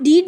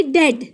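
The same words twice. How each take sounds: First: डीड with a long "ee"; wrong pronunciation. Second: डेड with a short "e"; correct pronunciation. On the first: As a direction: show the misreading डीड, rhyming with beat. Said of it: "इसको आप डीड नहीं पढ़ेंगे". (डीड, लंबी "ई" वाला गलत उच्चारण) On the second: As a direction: say डेड to rhyme with bed. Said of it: "आप इसको पढ़ेंगे डेड". (डेड, छोटी "ए" के साथ) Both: Shown as a demonstration.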